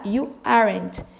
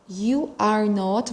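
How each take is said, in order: First: 'Are not' is contracted into one syllable. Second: 'Are not' is said as two full words. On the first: "eu posso falar simplesmente aren't" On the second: "ao invés de dizer are not"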